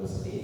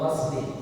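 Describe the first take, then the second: First: The first vowel is an 'u' sound. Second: The first vowel is an 'a' sound. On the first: It means bathing. The speaker calls it wrong. "kalau gusli itu salah" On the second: It means washing. The speaker calls it right. "Harusnya fil ghasli"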